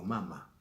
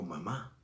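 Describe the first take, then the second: First: "mama" stressed on the first syllable. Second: "mamá" stressed on the second syllable; stress on final MÁ. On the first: Teacher showing what is not said, "mama" stressed up front. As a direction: hit the first MA of "mama", second one light. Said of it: "no digo mama". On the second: Teacher showing normal usage, "mamá" stressed on the last syllable. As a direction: put the weight on the end of "mamá". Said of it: "yo digo mamá". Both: Shown as a demonstration.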